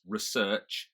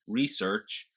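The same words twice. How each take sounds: First: Said in the usual way. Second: "research" as "REE-search", R sounded; American pronunciation. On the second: Shown as a demonstration. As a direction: stress the first syllable of "research". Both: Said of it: "little quirks".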